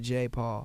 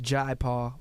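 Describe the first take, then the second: First: The first name is said like 'jay'. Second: The first name is said like 'jai'. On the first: This is how the artist says his own name. "but I think he pronounces it" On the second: This is the culturally proper pronunciation. "his name is properly pronounced"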